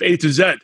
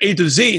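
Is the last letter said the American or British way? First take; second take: British; American. First: Z is said the British way, as zed. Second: Z is said the American way, as zee.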